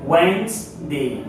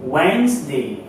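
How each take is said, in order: Both takes have the same delivery.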